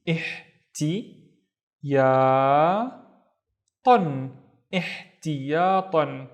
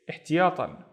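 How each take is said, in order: First: "ihtiyatan" drawn out very slowly, syllable by syllable; slow, careful "ihtiyatan"; slow blend. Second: Said in the usual way. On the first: Shown as a demonstration. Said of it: "slowed word demo". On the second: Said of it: "normal repeat".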